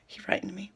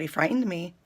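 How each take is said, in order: First: Voiceless and hushed; whisper. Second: Said in the usual way. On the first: Real, not acted. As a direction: drop to a spooky whisper. Repeated for effect, hushed.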